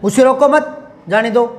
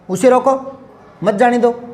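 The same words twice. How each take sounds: First: There is a pause after मत. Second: There is a pause after रोको.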